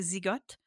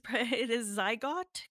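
First: It is pronounced with French sounds. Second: It is pronounced with English sounds. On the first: "In French, we say Zygote" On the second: "but it is Zygote Quarterly"

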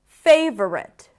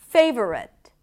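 No difference in how they are said.

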